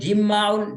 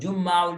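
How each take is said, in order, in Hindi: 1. पहले अक्षर में 'i' स्वर है। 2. पहले अक्षर में 'u' स्वर है। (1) "जीम के जेर के साथ भी" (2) "दोनों पढ़ सकते हैं"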